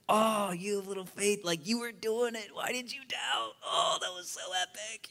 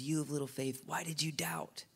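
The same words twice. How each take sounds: First: High-pitched, thrilled big-brother voice; hyped-up, high brotherly encouragement; excited brother. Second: Softly voiced reproachful father; shaming father. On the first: Acted. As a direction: cheer him on like an excited brother. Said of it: "in the excited brother's voice". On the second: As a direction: lightly shame them, well under your usual volume. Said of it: "a shaming father's voice".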